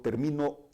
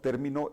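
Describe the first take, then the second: First: The stress is on the second syllable. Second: The stress is on the first syllable. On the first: I finish, in the present. "el acento lo llevaría en la sílaba mi" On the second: It names a concept or term. "es una palabra esdrújula, lleva el acento en la E"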